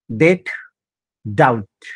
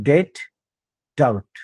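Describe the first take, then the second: No difference in how they are said.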